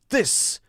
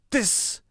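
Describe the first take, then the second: First: The first sound is pushed hard, almost a D. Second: The first sound is pushed hard, almost a D.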